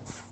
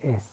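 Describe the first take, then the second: First: The s sound comes with no vowel before it. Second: A vowel comes before the s sound. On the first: The speaker calls it right. "میگن س" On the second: The speaker calls it wrong. "ما تو فارسی میگیم اس"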